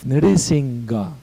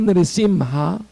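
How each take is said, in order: First: The middle consonant is a g sound. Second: The middle consonant is an h sound. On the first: The speaker calls it wrong. "It's not. It's an H. It's not a G" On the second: The speaker calls it right. "It's an H"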